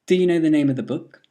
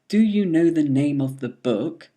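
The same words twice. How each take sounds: First: The word 'do' has a weak, reduced vowel. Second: The word 'do' has a full vowel.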